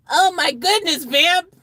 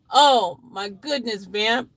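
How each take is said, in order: First: High, loud theatrical shock; shocked exclamation. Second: Slow, drawn-out exclamation; mild mock horror. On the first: Acted. Redoes exclamation in changed voice. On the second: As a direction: exclaim it slowly with mild shock. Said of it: "in sudden horror".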